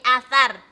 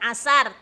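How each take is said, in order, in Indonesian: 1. Konsonan tengahnya adalah bunyi th. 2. Konsonan tengahnya adalah bunyi s biasa. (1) "tapi athar. Pakainya fa" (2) "Bukan asar"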